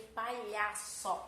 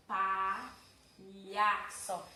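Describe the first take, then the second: First: Said in the usual way. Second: Palhaço stretched very slowly, syllable by syllable; very slow demo. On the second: Shown as a demonstration. Teacher to class, sounding palhaço out slowly. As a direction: draw out palhaço to show the lh. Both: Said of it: "aqui eu tenho palhaço".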